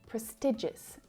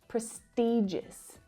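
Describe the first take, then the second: First: The stressed vowel is a short 'i' sound. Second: The stressed vowel is a long 'ee' sound. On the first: The speaker calls it right. "the preferred pronunciation is prestigious ... I, the shorter vowel sound" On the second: The speaker calls it wrong. "not prestigious"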